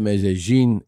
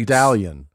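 First: The name is pronounced with a Spanish accent. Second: The name is pronounced with an English accent.

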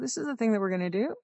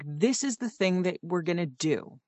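First: The voice rises at the end. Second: The voice falls at the end. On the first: The speaker sounds unsure. The speaker calls it wrong. "Which sounds like you're really unsure" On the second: It is an authoritative statement. The speaker calls it right. "if you end down, that makes it a statement"

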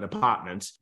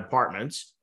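First: It is said in a New England accent. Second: It is said in a General American accent.

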